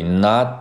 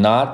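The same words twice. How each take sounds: First: "not" with the final t unreleased; swallowed T ending on "not"; held T. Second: "not" with a fully released, puffed final t; wrong-way demo, "not" with an audible T release; exploded T. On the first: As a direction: keep the t of "not" in the mouth, no burst. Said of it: "而是含在嘴里". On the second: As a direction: burst the t at the end of "not". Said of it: "不要读成". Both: Shown as a demonstration.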